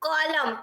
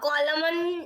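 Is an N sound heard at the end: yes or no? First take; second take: no; yes. First: The word ends without any N sound. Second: The word ends with an N sound. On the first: The speaker calls it right. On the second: The speaker calls it wrong. "કોલમન એવું નથી બોલ્યું"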